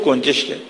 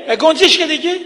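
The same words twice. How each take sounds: First: Said in the usual way. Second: Much higher, irritated mock yell; retold exasperated yell. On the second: Son fed up with his father's repeated question, mock exasperated yell. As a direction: imitate a son losing patience, pitch shooting up. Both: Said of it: "پسر داد زد".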